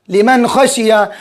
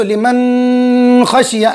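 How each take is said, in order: First: "लिमन खशिया" with a short n before ख; no nasal hold. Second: "लिमन खशिया" with a very long hummed n before ख; wrong nasal hold. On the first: Teacher models the correct word, "लिमन खशिया" with plain short n. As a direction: go straight from "लिमन" into "खशिया", n unheld. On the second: Teacher shows the error, "लिमन खशिया" with n held long nasally. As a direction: drag the n of "लिमन" through the nose, then "खशिया". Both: Shown as a demonstration. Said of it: "अगर गुन्ना करेंगे तो".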